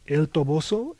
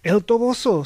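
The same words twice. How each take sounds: First: "El Toboso" unforced, rising at the end as a question; questioning echo. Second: "El Toboso" high and loud, falling firmly at the end; emphatic confirmation. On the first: Harvey echoes Mahogany's sudden proposal, questioning echo of "El Toboso". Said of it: "echoed Harvey". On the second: Mahogany confirms the destination to Harvey, emphatic "El Toboso". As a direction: declare "El Toboso" with conviction. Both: A narrator's reading.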